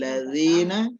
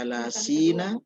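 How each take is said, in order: First: The middle consonant is a soft 'dh' sound. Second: The middle consonant is a plain 's' sound. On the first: The speaker calls it right. "Jadi ladzina" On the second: The speaker calls it wrong. "jangan dibaca lasina"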